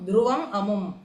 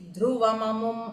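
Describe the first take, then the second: First: The two words are said as separate words. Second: The two words run together without a break.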